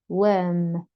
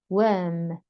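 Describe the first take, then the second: No difference in how they are said.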